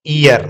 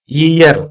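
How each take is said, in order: First: "ईयर" starting straight on the long ee vowel; wrong pronunciation. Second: "ईयर" said yi-yar, with a y glide in front; correct pronunciation. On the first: Teacher showing the mistaken reading of "ईयर", ee-yar without initial y. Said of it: "गलत है". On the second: Teacher modelling how we read "ईयर", as yi-yar with initial y. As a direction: open "ईयर" on a clear y sound. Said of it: "ईयर पढ़ते हैं". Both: Shown as a demonstration.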